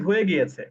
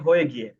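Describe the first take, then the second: First: The last word is said in full. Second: The end of the last word is dropped. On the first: "আমি যদি বলতে চাই" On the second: "তারা বলে"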